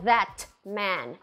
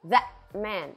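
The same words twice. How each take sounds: First: The T in 'that' is clearly released. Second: The T in 'that' is held in the throat. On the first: The speaker calls it wrong. "Então não é that man" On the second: The speaker calls it right. "Segura aqui na glote"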